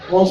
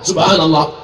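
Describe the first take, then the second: First: It is said fast and clipped. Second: It is said slowly and clearly.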